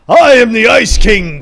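It is said in a put-on character voice.

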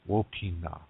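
The last syllable begins with an n sound. This is the Nakota dialect form. "Nakota people, Wopina"

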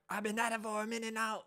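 The pitch moves up and down a lot.

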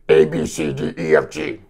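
It is said in a scratchy voice.

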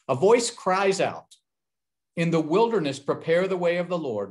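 The pause comes before 'in the wilderness'.

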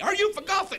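It is asked in an angry voice.

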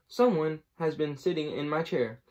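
The voice is medium in pitch and size. "said in her middle-sized voice"

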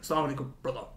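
The voice is harsh, like a jinn.

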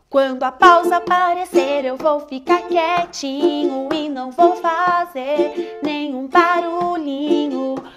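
The voice sounds harsh and angry. "Muito bravo"

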